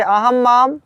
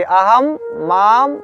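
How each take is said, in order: First: "अहं माम" joined as one phrase; two forms together. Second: "अहम", then "माम", each separate; one form at a time. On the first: Teacher showing reading in twos, "अहं माम" linked. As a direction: run "अहं" straight into "माम". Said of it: "आप दो दो पढ़ सकते हैं". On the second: Teacher demonstrating forms singly, "अहम" and "माम" spaced apart. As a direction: pause after "अहम", then say "माम" alone. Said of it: "एक बार एक एक रूप पढ़ना चाहिए". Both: Shown as a demonstration.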